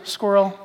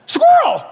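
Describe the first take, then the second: First: Said in the usual way. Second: Sudden high shouted "Squirrel!", much higher and louder; the dog from Up. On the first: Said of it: "She goes". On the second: Retold or imitated. Preacher imitating the dog from Up, high excited shout. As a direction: blurt "Squirrel!" like a distracted cartoon dog. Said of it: "You know that cartoon Up? ... With the dog?".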